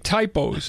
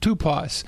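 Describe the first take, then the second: First: The first vowel sounds like 'eye'. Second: The first vowel sounds like 'oo'. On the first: It is read as the English word for misprints. "But it literally looks like typos" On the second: It is read as the Greek word for a type. "which we would have pronounced it Tupos"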